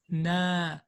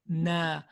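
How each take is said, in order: First: The vowel is thin and light, with open mouth. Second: The vowel is thin and light, with open mouth.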